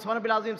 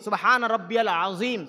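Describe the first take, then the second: First: It is said quickly with sounds slurred together. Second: It is said slowly with each sound clearly pronounced. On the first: The sounds of the words are not properly pronounced. The speaker calls it wrong. "এত ঘন ঘন করে" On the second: Each word is pronounced properly. The speaker calls it right. "আপনি এভাবে তিনবার বলেন"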